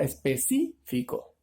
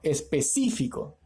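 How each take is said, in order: First: "específico" slowed, with CÍ held out and set apart; stress on CÍ. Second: Said in the usual way. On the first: Shown as a demonstration. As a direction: draw out the stressed syllable in "específico": espe-CÍ-fico. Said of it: "su sílaba tónica". («específico» lento, alargando y marcando la sílaba CÍ)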